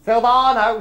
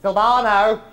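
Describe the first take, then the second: First: Louder call across the room. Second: Loud call across the room. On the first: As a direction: summon the waiter again, louder. Calling again. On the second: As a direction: summon the waiter loudly. Calling waiter across room. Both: Real, not acted.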